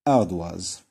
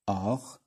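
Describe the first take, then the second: First: Ardoise called out loud, oi as wa; emphatic model word. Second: Said in the usual way. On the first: Shown as a demonstration. Teacher to pupils, loud model of the word. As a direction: announce Ardoise loudly to the class. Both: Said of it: "هذيك وا".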